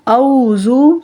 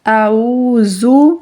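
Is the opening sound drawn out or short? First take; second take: short; drawn out. First: The opening sound is short, with no stretch. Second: The opening throat sound is drawn out and stretched. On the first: The speaker calls it wrong. "औज़ु नहीं कहेंगे" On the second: The speaker calls it right. "आइन को खींच कर अदा करेंगे"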